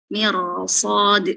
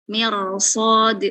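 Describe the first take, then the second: Both takes have the same delivery.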